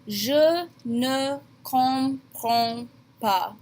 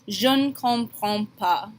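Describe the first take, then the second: First: Je and ne are said as separate syllables. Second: Je and ne blend together into jeune. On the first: "It will always be written this way" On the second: "combine the je and the ne a little bit when you say it and pronounce it jeune"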